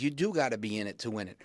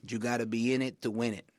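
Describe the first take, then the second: First: Said in the usual way. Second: Light imitation of a dad's thick Puerto Rican accent; a hint of Puerto Rican accent on the old saying. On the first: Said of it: "my point is". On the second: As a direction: quote dad in a mild Puerto Rican accent. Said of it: "thick Puerto Rican accent".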